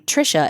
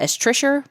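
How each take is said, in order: First: The name ends in a plain vowel. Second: The name ends with an added r sound. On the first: This is the person's actual name. "my mom's name" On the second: This is how an older relative said the name. "She also pronounced ... everybody had an E R"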